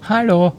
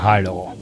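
First: The greeting is said in a friendly tone. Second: The greeting is said in an unfriendly tone. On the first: The caller is a friend. "Wenn Sie einen Freund, einen ehemaligen Freund gehört haben, dann hätten Sie quasi so zurückgerufen" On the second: The caller is not a friend. "Wenn es ein Nicht-Freund ist, dann so"

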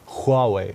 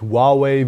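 First: The opening sound is throaty, from the back. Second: The opening sound is light, not from the throat. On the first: The speaker calls it right. "Ein bisschen mehr Kehle" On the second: The speaker calls it wrong. "richtig wäre auch nicht Huawei"

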